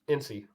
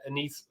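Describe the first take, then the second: First: The name sounds like 'N C'. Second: The name sounds like 'Anis'. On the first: The speaker calls it right. "It's N C Sludge" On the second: The speaker calls it wrong. "You said Anis"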